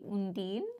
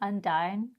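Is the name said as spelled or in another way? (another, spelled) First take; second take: another; spelled. First: The name is pronounced differently from its spelling. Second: The name is pronounced the way it is spelled. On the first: The speaker calls it right. "it's actually Undine" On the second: The speaker calls it wrong. "We were saying Undine because that's how it looks like it should be spelled"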